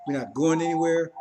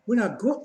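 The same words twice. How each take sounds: First: Said in the usual way. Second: Mocking echo. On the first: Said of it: "Devil's not devils anymore".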